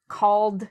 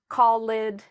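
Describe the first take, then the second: First: The ending is a plain d sound. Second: The ending is not a plain d sound. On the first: The speaker calls it right. "the correct pronunciation is" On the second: The speaker calls it wrong. "That's what a lot of people who are learning English say"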